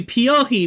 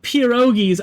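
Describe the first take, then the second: First: The word is said with an Italian-style pronunciation. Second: The word is said the common English way. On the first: "it's more of the Italian pronunciation" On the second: "the way that most people do"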